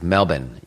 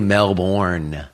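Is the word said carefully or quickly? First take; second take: quickly; carefully. First: The word is said quickly with reduced sounds. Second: The word is said slowly with every letter sounded. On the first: The speaker calls it right. "It's like Melbourne. You have to say it really fast" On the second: The speaker calls it wrong. "They don't say Melbourne, you know, like it's spelled"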